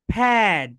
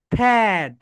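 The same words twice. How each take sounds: The two takes are said the same way.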